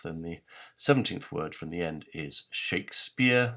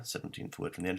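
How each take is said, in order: First: Said in the usual way. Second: Soft breathy whisper, much softer; whispered repeat. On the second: Shown as a demonstration. Lecturer to viewers, repeating the clue in a whisper. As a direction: let the clue slip out in a hush.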